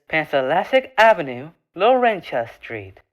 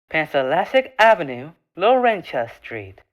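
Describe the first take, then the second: No difference in how they are said.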